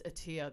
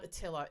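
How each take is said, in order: First: "Attia" without the L, low and soft; imitated correction. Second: "Attila" with the L, low and quiet; imitated mispronunciation. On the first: Host mimicking his teasing correction, "Attia" without the L. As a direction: quote "Attia" with the L dropped. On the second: Host retelling his teasing correction, "Attila" with an L. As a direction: quote "Attila" with its L sounded. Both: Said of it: "He teased me and then he said".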